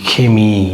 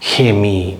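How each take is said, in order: First: The word starts with a breathy H-like sound. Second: The word starts with a breathy H-like sound.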